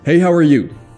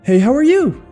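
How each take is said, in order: First: The pitch is lower and falls at the end. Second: The pitch rises at the end. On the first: The speaker claims higher status. "a little bit lower octave and you actually curve downward" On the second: The speaker is seeking approval. "instead of"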